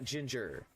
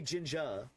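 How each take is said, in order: First: The final R is hard and strongly pronounced. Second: The final R is soft and barely pronounced. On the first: The speaker calls it wrong. "you can't be using the hard R" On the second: The speaker calls it right. "you can say ginger"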